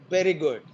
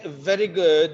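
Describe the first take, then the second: First: The first word starts with a b sound. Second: The first word starts with a v sound. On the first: "they are pronounced as b" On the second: "If you want to say very good"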